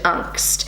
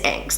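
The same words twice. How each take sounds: First: It is said with a German pronunciation. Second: It is said with a New Zealand English pronunciation. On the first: "the German word Angst" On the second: "that's how I say it in my New Zealand accent"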